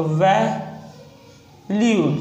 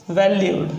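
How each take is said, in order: First: valued split into "vai", long pause, "lyud"; sounded out slowly. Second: Said in the usual way. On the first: Shown as a demonstration. Teacher breaking down a shorthand example, sounded out slowly. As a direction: say valued very slowly in two halves.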